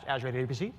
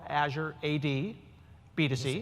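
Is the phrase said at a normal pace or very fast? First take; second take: very fast; normal. First: The phrase is said very quickly. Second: The phrase is said at a normal pace.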